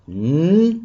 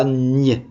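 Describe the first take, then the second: First: "n" said as a held, plain n; n sound. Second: "n" said as the French gn, "nye"; gn sound. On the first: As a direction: sound out "n" alone, like a hum. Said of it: "on entend n". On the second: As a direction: sound out "n" with a y-glide, as in ligne. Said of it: "mais pas n". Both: Shown as a demonstration.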